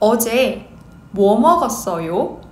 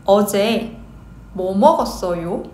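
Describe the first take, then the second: The two takes are said the same way.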